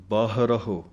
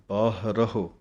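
Both takes have the same delivery.

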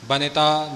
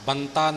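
First: The n is followed by a short i vowel. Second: The n is said with no vowel after it. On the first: The speaker calls it right. "ਨੰਨੇ ਨੂੰ ਸਿਹਾਰੀ ਦਾ ਉਚਾਰਨ ਕਰਕੇ ਬੋਲਣਾ ਜੀ" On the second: The speaker calls it wrong. "ਬਨਤਾ ਨਹੀਂ ਬੋਲਣਾ"

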